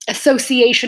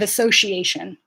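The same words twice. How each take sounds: First: The middle consonant is an s sound. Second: The middle consonant is a sh sound. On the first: "British people say" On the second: "they don't have the sh sounds as often as we do"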